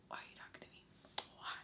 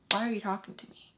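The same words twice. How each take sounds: First: Barely audible whispered question; hushed, voiceless mock plea; whispered disbelief. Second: Said in the usual way. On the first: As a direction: whisper it under your breath. Same question muttered under breath.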